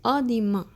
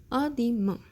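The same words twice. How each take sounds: First: "a demain" said louder with stress on "a"; emphatic demo of "a demain"; louder model. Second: Said in the usual way. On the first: Shown as a demonstration. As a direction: announce "a demain" clearly to the class. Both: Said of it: "so next".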